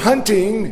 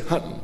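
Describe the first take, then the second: First: The final syllable is fully pronounced. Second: The final syllable is swallowed and clipped.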